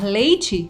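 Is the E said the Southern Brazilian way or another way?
another. The final E has the usual non-Southern sound. "em vez de falar"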